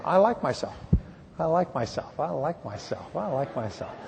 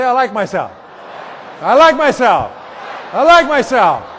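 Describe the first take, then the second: First: Quiet, fading self-talk; gentle murmured affirmation; softly repeated affirmation. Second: Shouted, much higher and louder; rising to an excited shout; loud affirmation. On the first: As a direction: say it softly to yourself, letting it drop. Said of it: "you can raise your self-esteem by just saying". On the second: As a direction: proclaim it loudly to the room. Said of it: "Say it". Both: Shown as a demonstration.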